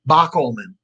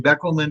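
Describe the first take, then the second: First: The first syllable sounds like bock. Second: The first syllable sounds like beck. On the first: This is how the speaker's own family says it. "My last name is spelled is pronounced Bockelman" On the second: This is how other family branches say it. "Some of our families say Beckelman"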